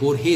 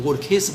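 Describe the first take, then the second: First: The second syllable begins with a soft h sound. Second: The second syllable begins with a raspy kh sound. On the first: The speaker calls it right. "नहीं ये बोरहेस" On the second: The speaker calls it wrong. "लोग बोरखेस बोलते हैं"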